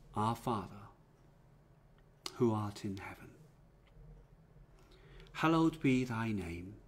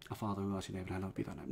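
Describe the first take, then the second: First: The prayer is said slowly, not rushed. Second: The prayer is said quickly, in a rush.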